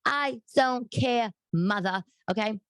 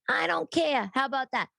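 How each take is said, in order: First: Slow, deliberate and higher; drawn-out pointed defiance; defiant. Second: Much higher, emphatic snap of defiance; sharp, higher defiant retort. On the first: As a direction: lay each word down for mother. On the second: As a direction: fire it back at mother. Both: Real, not acted. Defying mother.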